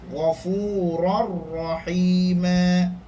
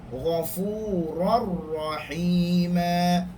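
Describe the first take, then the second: No difference in how they are said.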